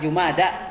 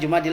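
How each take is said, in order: First: The word ends with an open 'a' sound. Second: The word ends with an 'il' sound. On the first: The speaker calls it right. "yang benar apa? Jumada" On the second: The speaker calls it wrong. "Kalau orang Indonesia bilang Jumadil Akhir, enggak"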